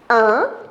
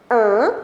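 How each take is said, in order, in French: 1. La voyelle se prononce avec les lèvres étirées, en souriant. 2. La voyelle se prononce avec les lèvres étirées, en souriant.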